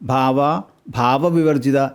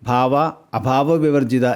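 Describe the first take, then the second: First: The second part begins with a plain 'bha' sound. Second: The second part begins with an 'a' before 'bha'. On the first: The speaker calls it wrong. "എന്ന് ചൊല്ലരുത്" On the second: The speaker calls it right. "എന്നാണ് ശരിയായ രീതി"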